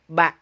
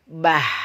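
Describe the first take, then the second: First: The syllable ends cleanly with the breath held. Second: The syllable ends with breath audibly escaping. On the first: The speaker calls it right. "napas kita tertahan" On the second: The speaker calls it wrong. "tidak boleh bah"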